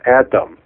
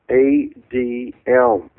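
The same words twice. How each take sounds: First: It is pronounced the English way. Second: It is pronounced the Hebrew way. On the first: The speaker calls it wrong. "not Adam, A-D-A-M" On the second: The speaker calls it right. "It's the word in Hebrew"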